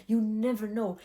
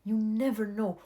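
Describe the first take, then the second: No difference in how they are said.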